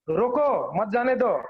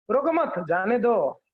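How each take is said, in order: First: Slow, "रोको" set apart from "मत जाने दो"; pause after रोको. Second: Slow, "रोको मत" together, then "जाने दो"; group मत with रोको, meaning let them go; pause after मत. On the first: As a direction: split after रोको, meaning stop them. ("रोको" के बाद रुककर, धीरे) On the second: ("रोको मत" के बाद रुककर, धीरे) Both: Shown as a demonstration. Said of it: "दोनों समझ सकता है एक".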